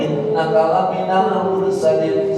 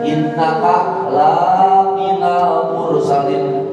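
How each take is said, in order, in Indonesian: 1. Vokal pada 'la' dibaca pendek. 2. Vokal pada 'la' dibaca panjang. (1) "kalau pendek" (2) "jangan dibaca begini"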